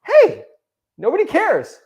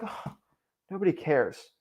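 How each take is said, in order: First: Much higher, louder, bright "Hey, nobody cares" as good news; cheerful relief. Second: Soft, sinking "Oh, nobody cares" like giving up; deflated. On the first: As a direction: announce "nobody cares" like a liberating discovery. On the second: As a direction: say "nobody cares" as bad news, sighing and quiet. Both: Shown as a demonstration. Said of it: "It's the same sentence, but people can put it either one way or the other".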